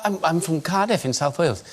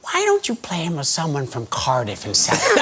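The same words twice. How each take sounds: First: Said in the usual way. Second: Lightly voiced American director, imitated; Peter Falk. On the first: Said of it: "I went". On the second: Director suggesting an easier accent to the actor, lightly imitated American. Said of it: "He went".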